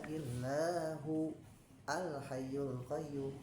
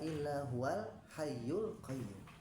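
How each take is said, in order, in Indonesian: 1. Hamzah terdengar sebelum 'al'. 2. Kata-katanya menyambung tanpa hamzah.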